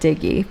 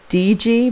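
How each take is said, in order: First: It is said as one two-syllable word. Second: It is said as two separate letter names. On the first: "I like to pronounce it Diggy" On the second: "it looks like it's pronounced D G"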